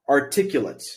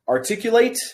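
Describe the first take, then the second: First: The stress is on the second syllable, cu. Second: The stress is on the last syllable, late. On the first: The word is used as an adjective. "q becomes the um, becomes the stressed syllable" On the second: The word is used as a verb. "Late is the um, the stressed syllable"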